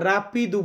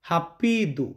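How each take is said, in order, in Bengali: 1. প্রথম ধ্বনিটি ইংরেজি R-এর মতো। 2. প্রথম ধ্বনিটি H-এর মতো। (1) "রাপিদু বলবেন না" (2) "পর্তুগিজ আলফাবেততে হর মতো উচ্চারণটা হয়"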